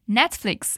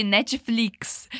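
First: Netflix said the English way, NET-fliks; English pronunciation. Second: Netflix said the Brazilian way, NE-chee-FLEEKS; Brazilian pronunciation. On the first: Teacher modelling correct English Netflix for learners, English pronunciation. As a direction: say Netflix in English, no vowel after the t. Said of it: "é a pronúncia correta em inglês". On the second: Teacher showing how Brazilians call it, Brazilian-accented Netflix. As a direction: say Netflix with a Portuguese "chee" after Ne. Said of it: "porque a gente chama de". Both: Shown as a demonstration.

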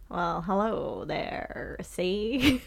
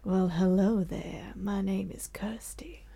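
First: Gangster criminal voice. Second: Seductive serial-killer hush; lady criminal voice. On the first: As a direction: play it like an old-time crook. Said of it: "let's start with you being a criminal". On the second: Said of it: "you being a lady criminal". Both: Acted.

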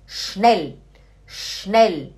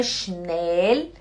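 First: "schnell" with short E and clear L; correct short vowel. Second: "schnell" with a dragged-out E; wrong long vowel. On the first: Teacher correcting for students, short E. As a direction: keep the E of "schnell" quick, falling. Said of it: "é schnell". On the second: Teacher showing students the mistake, long E. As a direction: stretch the E in "schnell". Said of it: "Não é schnell". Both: Shown as a demonstration.

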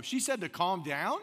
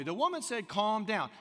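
First: "calm down" slowed, with a questioning rise at the end; mirroring question. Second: Said in the usual way. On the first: Shown as a demonstration. Listener mirroring a friend's story back, "calm down" as rising question. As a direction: echo it back as a question, lifting on "down". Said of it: "make it a question and go". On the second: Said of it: "I can take that phrase and make it a question".

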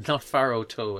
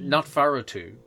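First: "Faro Toe" ending in a long oh; corrected pronunciation. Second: "Faro too" ending in an oo sound; tentative pronunciation. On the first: Correcting the book name for co-hosts, pronunciation ending "Toe". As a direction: say "Toe" to rhyme with go. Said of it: "I think is how it's meant to pronounce". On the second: Explaining a book name to co-hosts, tentative pronunciation "too". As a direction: say "too" with a rounded oo. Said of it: "how it's meant to pronounce". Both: Shown as a demonstration.

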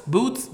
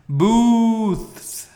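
First: "Boots?" asked with a questioning rise, the th dropped; boots mistaken. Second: "Booths." said loud and high with a clear th ending. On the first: A listener mishears booths as boots, puzzled rising question. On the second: Correcting the audience who heard boots, loud and emphatic. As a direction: stress the th in "Booths.". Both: Shown as a demonstration. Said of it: "Boots, not boots".

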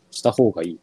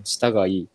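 First: Said in the usual way. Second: したがいい said as one contracted dialect phrase, low; dialect form. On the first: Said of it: "した方がいいって言うな". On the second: Shown as a demonstration. Guest testing his hometown wording, したがいい in contracted dialect form. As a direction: say したがいい compactly, without the ほう. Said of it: "北九州だと".

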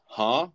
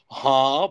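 First: Rising, can't-hear-you question; higher, questioning grunt; puzzled huh. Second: Loud, high mocking echo; louder, exaggerated questioning shout; huh thrown back. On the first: Retold or imitated. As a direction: imitate someone who couldn't hear. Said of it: "he's wearing fucking noise-canceling headphones". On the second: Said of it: "back to him".

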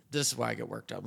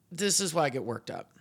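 First: Said in the usual way. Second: Worked up. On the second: Real, not acted.

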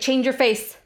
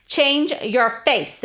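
First: Retold order at ordinary speed, higher; imitated mom's order. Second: "Change your face" slowed, each word punched; imitated stern mom. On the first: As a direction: toss out a mother's command, imitated. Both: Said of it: "my mom used to be like".

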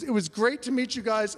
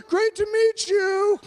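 First: Said in the usual way. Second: High, loud, drawn-out holler; yelled farewell. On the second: Retold or imitated. Crowd waving him off as he leaves, yelled farewell. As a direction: holler it after someone leaving. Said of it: "were just yelling at me".

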